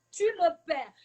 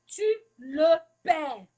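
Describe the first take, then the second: First: Said in the usual way. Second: "tu le perds" stretched out slowly and louder, each word weighted; slow emphasis. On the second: Shown as a demonstration. Teacher warns parents, slowly and louder, that they lose the child. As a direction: drag out "tu le perds" to drive the warning home.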